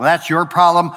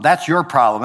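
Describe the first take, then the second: First: Problem leaned on, the end of the thought; stress on problem. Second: That's hit, the rest falling away; stress on that's. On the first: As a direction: drive the weight onto problem. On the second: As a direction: point at it with That's. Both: Shown as a demonstration.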